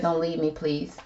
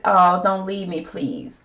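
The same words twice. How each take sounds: First: Said in the usual way. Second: Acted plea. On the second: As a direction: plead it in Jennifer's place, lightly acted. Acting out Jennifer's pleading card.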